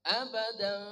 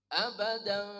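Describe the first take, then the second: The two takes are said the same way.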